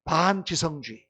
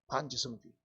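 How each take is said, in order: First: 반지성주의 drawn out slowly, syllable by syllable; slow term. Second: Said in the usual way. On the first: Shown as a demonstration. Preacher introducing a term, 반지성주의 said slowly. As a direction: spell out 반지성주의 slowly for the congregation. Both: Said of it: "좀 어려운 말로 뭐라고 얘기하냐".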